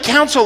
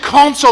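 First: "counsel" with an "ow" first vowel; pronounced "counsel". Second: "consul" with an open "ah" first vowel; pronounced "consul". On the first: Querying the ambassador about the lawyer word, "counsel" said COWN-sel. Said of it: "like, lawyer". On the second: Ambassador correcting him to the diplomat word, "consul" said KAHN-sul. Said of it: "like, diplomat". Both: Retold or imitated.

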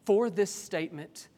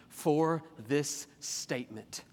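First: Higher, crisper "For this statement"; reading the verse word for word; exact quote. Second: Slow, drawn-out reading of the verse; lingering paraphrase of the verse; drawn-out quote. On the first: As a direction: lift "For this statement" as the exact quotation. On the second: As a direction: stretch out "For this statement". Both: Shown as a demonstration. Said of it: "What is the words he actually uses?".

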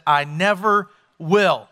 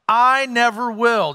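First: NEVER held long and falling; slow stubborn vow. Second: I never will drawn out slowly; firm slow vow. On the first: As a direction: stretch the word never in I never will. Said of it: "repeated vow, slow". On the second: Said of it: "Peter's vow slowed". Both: Retold or imitated.

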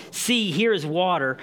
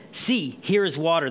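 First: "See, here is water." as an eager exclamation, HERE lifted; exclaimed. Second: Said in the usual way. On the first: Shown as a demonstration. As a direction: burst out with it, excited to have found water. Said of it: "No, it's an exclamation, exclamation mark". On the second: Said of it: "It's not like I read it in the beginning".

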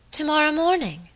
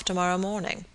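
First: High-pitched echo of surprise; startled exclamation. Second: Said in the usual way. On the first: A narrator's reading. My lady learns her guest leaves tomorrow, startled. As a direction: repeat it as a sudden, surprised question. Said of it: "exclaimed my lady, looking up suddenly". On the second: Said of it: "observed Mister Audley with some gravity".

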